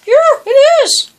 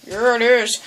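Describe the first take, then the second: First: Excited. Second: Said in the usual way. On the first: Shown as a demonstration.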